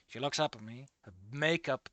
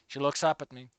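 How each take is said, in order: First: Hushed story reading. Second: Said in the usual way. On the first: A narrator's reading. Rereads the line more dramatically.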